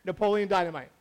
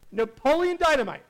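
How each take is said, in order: First: Said in the usual way. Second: Title repeated louder and higher; big reveal of the sleeper hit; emphatic title reveal. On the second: Shown as a demonstration. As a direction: land the name like a punchline.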